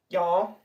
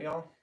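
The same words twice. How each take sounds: First: A hammed-up Southern twang on the word Y'all, rising at the end; mock Southern drawl. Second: Said in the usual way. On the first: Shown as a demonstration. Joking to viewers about fake accents, hammed-up Southern accent. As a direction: say Y'all like a put-on Southern local, louder. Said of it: "I'm not one of those people who put on fake accents". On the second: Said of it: "put on fake accents".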